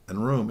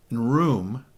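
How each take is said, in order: First: "and room" blurred into one quick word; careless, run-on "and room"; run-together diction. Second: "and room" with a clear pause between "and" and "room"; every syllable of "and room" carved out; spaced diction. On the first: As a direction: slur "and room" together fast. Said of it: "instead of and room". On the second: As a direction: say "and" then "room" as two separate words. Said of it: "you see how I did that?". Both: Shown as a demonstration.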